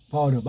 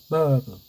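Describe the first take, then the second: First: The r is said plainly in a Korean style. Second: The r is dropped in an English style. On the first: The speaker calls it right. "그냥 우리식으로 해야 돼요" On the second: The speaker calls it wrong. "혀 굴리는 식으로 미어로 바뀌는 식"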